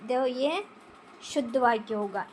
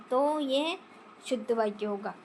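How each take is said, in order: Both takes have the same delivery.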